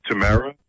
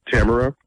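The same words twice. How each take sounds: First: Tamara as tuh-MARE-uh, rising like a question; questioning Tamara, middle syllable stressed; stress on second syllable. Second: Tamara as TAM-er-uh, rising like a question; questioning Tamara, opening syllable stressed; stress on first syllable. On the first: Host wondering how to say Tamara, second syllable stressed, rising. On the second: Host wondering how to say Tamara, first syllable stressed, rising. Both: Shown as a demonstration. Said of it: "Wherever you want to put that accent".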